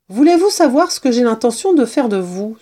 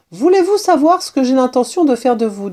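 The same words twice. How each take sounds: First: Higher, keen question with a rise; repeated eager question. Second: Higher, keen kitten question; eager question. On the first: Kitten asking the limp mouse, eager and higher. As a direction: ask it brightly, lifting at the end. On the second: Kitten asking his captive mouse, eager and higher. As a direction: ask it eagerly, starting high. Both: A narrator's reading.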